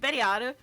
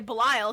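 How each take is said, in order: First: The name is said with Japanese sounds. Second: The name is said with English sounds. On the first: "in Japanese it's" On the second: "we say Belial because it's close enough"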